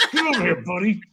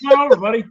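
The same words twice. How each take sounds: First: Mock-stern order to a buddy; higher-pitched, pointed "get over here, buddy"; stern inflection. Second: High, loud, welcoming "come over, buddy"; friendly inflection. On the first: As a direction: summon him like he's in trouble. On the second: Acted. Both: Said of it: "it's the inflection".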